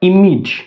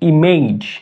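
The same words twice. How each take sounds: First: The ending is pronounced like 'ij'. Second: The ending is pronounced like 'aij'. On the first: The speaker calls it right. "অর্থাৎ এই শব্দটি হবে ইমেজ" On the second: The speaker calls it wrong. "এই শব্দটিকে আমরা বলতাম ইমেজ। এটা কিন্তু ইমেজ হবে না"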